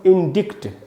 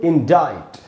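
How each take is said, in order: First: A k sound is heard before the final t. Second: No k sound is heard before the final t. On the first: The speaker calls it wrong. "देखने से क्या लगता है" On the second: The speaker calls it right. "सी इसमें silent है"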